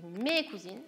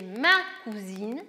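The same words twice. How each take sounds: First: "mes cousines" with "mes" set apart; stressed example. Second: "ma cousine" slow and louder with "ma" stressed; stressed example. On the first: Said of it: "vous avez dit". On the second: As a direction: lean slowly on "ma" in "ma cousine". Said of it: "Quand vous avez dit". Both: Shown as a demonstration.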